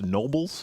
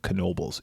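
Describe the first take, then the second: First: The initial K sound is silent. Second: The initial K sound is pronounced. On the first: This is how the spelling suggests it should be said. "looks like it should be pronounced Nobles" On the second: This is how the locals say it. "people around here pronounce the K"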